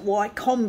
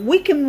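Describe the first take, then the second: First: The name is said like 'why-kum'. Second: The name is said like 'wick-um'. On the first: The speaker calls it wrong. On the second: The speaker calls it right.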